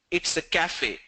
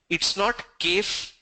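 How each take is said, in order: First: Cafe said as "kafe", two syllables; correct cafe. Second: Cafe said as "kef", the wrong Hyderabad way; mock the wrong cafe with a slow stressed not. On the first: Teacher giving students the right cafe, plain and firm. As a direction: give the right cafe plainly after the wrong one. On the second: Teacher showing students the wrong cafe, slow and stressed. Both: Shown as a demonstration.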